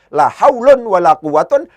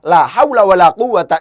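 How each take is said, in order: First: Both nouns end with the -un sound. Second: Neither noun ends with the -un sound. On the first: The negating word governs neither noun. "dibaca tidak diamalkan sama sekali" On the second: The negating word governs both nouns. "La haula tidak ditanwin di situ"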